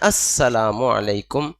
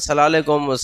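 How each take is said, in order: First: The greeting is said fully with every syllable. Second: The greeting is clipped into a short slurred word. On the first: The speaker calls it right. "सलाम है अस्सलामु अलैकुम" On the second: The speaker calls it wrong. "सलालेकुम कोई सलाम है ही नहीं"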